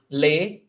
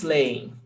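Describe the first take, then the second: First: Leem split into "le", pause, "em"; hiatus. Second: Said in the usual way. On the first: Shown as a demonstration. Teacher demonstrating a hiatus, leem pulled apart as "le-em". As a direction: break leem into two separate syllables.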